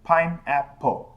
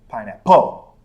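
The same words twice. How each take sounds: First: The stress is on the first syllable. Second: The stress is on the second syllable.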